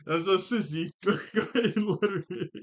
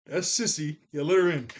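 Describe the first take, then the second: First: Laughing. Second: Said in the usual way. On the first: Retold or imitated. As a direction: quote broken up by laughter. Repeats the quote while laughing.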